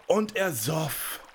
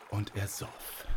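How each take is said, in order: First: Slow, high, drawn-out climax; swelling emphasis. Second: Soft, understated first round of the drinking; hushed narration. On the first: Narrator shows the giant about to burst, slow and emphatic. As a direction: stretch every word as the drinking peaks. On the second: Narrator tells children the giant starts drinking, hushed. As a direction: begin the repetition softly, leaving room to build. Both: A narrator's reading.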